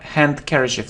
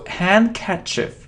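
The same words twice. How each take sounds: First: A d sound is pronounced after the n. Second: No d sound is pronounced after the n. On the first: The speaker calls it wrong. "It isn't ha handkerchief. No, we don't pronounce d" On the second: The speaker calls it right. "So handkerchief"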